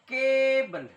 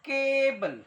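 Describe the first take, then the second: No difference in how they are said.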